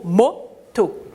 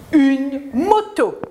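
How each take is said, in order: First: Said in the usual way. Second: "Une moto" read slowly, each syllable clear; slow model reading. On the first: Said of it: "J'entends o". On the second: Shown as a demonstration. Teacher to pupils, reading the word slowly to model it.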